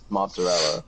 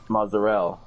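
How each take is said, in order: First: The word has a t-like sound in it. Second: The word has no t-like sound in it. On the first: This is the usual American way of saying it. "That's how that's how us Americans say it" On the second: This is closer to how it is supposed to be said. "It's actually pronounced mozzarella, but I, I butchered that too"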